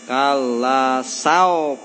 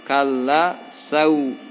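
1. Kata kedua berakhir dengan bunyi o. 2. Kata kedua berakhir dengan bunyi u. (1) "Jangan o" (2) "tapi u"

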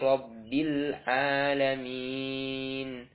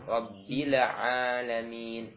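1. Frasa ini diucapkan dengan tempo yang terukur. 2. Frasa ini diucapkan terlalu cepat.

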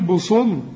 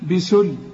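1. حرف السين تقيل ومفخم. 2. حرف السين خفيف ومرقق. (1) "هي سين ولا صاد؟" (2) "اللام رقاها بسل"

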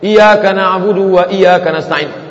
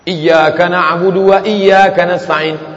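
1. Y pada iyyaka itu tunggal dan pendek. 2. Y pada iyyaka itu dobel dan ditahan.

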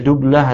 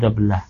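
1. Vokal pertama adalah bunyi 'u'. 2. Vokal pertama adalah bunyi 'a'. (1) "ini boleh dibaca dublah atau dablah" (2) "Terus kalau dablah itu bencananya"

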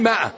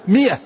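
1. الكلمة تبدأ بحركة 'a' طويلة. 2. الكلمة تبدأ بحركة 'i' قصيرة. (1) "العامة يقولوا لها ماء، ما هي ماء"

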